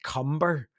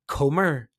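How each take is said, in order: First: The first syllable sounds like 'cum'. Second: The first syllable sounds like 'comb'. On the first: The speaker calls it right. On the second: The speaker calls it wrong.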